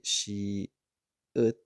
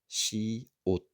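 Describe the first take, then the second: First: The second vowel is an uh sound. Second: The second vowel is an oh sound. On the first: The speaker calls it wrong. "the regular format would be she ut" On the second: The speaker calls it right. "a little bit of a different vowel sound there"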